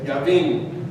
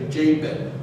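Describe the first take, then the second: First: The name is said in a non-American way. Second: The name is said in an American way.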